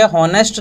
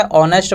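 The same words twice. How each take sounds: First: "हॉनेस्ट" mispronounced with its H voiced out; H sounded. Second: "ऑनेस्ट" pronounced with the H dropped; silent H. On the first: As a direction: say "हॉनेस्ट" with an audible H at the start. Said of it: "हॉनेस्ट नहीं पढ़ेंगे". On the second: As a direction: say "ऑनेस्ट" with no H sound. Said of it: "एच silent है". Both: Shown as a demonstration.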